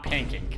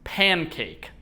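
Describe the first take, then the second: First: The word is said quickly and slurred. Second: The word is said slowly and carefully. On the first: The speaker calls it wrong. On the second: The speaker calls it right.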